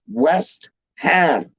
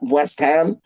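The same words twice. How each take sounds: First: Both words get full, equal weight. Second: West is rushed and Ham gets the weight. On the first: This is how locals say the name. The speaker calls it right. "two big like like words right there" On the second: This is how some outsiders say the name. The speaker calls it wrong. "they're like rushing the West"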